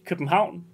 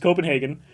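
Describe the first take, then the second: First: The name is said with a Danish pronunciation. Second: The name is said in a standard English way. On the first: "in Danish" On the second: "It's Copenhagen"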